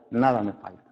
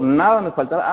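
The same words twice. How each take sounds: First: "nada me falta" said softer and lower, landing firmly on "falta"; present tense stressed. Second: "nada me faltará" with the final "faltará" stretched out long; future tense stressed. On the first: Pastor contrasts it for the congregation, a firm quiet present-tense "falta". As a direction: settle down on "falta" as something true now. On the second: Pastor shows the wrong future reading to the church, stressing "faltará". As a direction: lean on "faltará", drawing out its last syllable as a someday promise.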